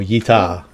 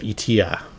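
First: The name begins with a 'y' sound. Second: The name begins directly with a vowel sound. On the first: The speaker calls it right. "I gotta think like yeehaw and go yeeta" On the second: The speaker calls it wrong. "I'm saying it wrong, I know it"

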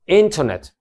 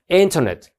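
First: The T after the n is clearly pronounced. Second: The same.

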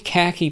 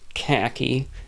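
First: The word is said in a normal voice. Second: The word is said in a funny put-on voice.

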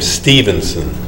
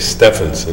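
First: The first vowel is a long ee sound. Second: The first vowel is a short e sound. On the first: The speaker calls it right. "It's a long E, as in his own name" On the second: The speaker calls it wrong. "We don't say Stephenson"

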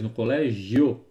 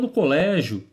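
First: The final diphthong is clearly pronounced. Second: The final diphthong is swallowed and reduced. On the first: The speaker calls it right. "Ele faz questão desse ditongo" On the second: The speaker calls it wrong. "a gente come muitos desses ditongos"

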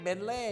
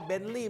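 First: The last syllable is said with a Thai accent. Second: The last syllable is said with an English accent. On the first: The speaker calls it wrong. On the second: The speaker calls it right.

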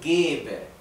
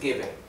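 First: The first vowel is long. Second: The first vowel is short. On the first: The speaker calls it right. "la primera E la pronuncio más larga" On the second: The speaker calls it wrong. "no es geber"

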